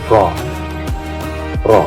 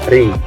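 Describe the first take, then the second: First: The ra is thick, with rounded, forward lips. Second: The ra is thin, with unrounded lips. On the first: "lidah kita itu agak menjorok ke depan" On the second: "Kalau dibaca tipis"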